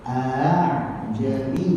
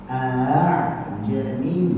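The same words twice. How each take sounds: The two takes are said the same way.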